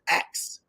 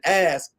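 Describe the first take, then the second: First: The word is said with 'k' before 's'. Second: The word is said with 's' before 'k'. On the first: "she says axe" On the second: "instead of saying"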